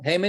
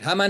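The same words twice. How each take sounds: First: The name is said with an English pronunciation. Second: The name is said with a Hebrew pronunciation. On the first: "Haman is English" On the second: "Haman is Hebrew"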